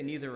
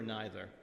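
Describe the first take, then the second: First: "neither" with a long ee vowel; "neither" as NEE-ther. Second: "neither" with an eye vowel; "neither" as NYE-ther. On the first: Storyteller asks which you say, "neither" as NEE-ther. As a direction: start "neither" like the word "knee". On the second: Storyteller asks which you say, "neither" as NYE-ther. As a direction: start "neither" like the word "nigh". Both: Shown as a demonstration. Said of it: "You say neither or neither".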